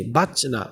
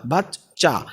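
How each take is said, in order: First: বাচ cut short with a single ch; wrong clipped word. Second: বাচ্চা with the চ held double; doubled consonant. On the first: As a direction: stop on বাচ without doubling. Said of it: "আমি কি বাচ বলছি?". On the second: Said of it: "দুইটা চ যুক্ত হয়ে গেছে". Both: Shown as a demonstration.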